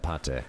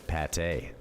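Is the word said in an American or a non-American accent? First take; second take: non-American; American. First: It is said in a non-American accent. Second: It is said in an American accent. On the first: "That's how I say it" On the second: "If I was American, I'd say pate"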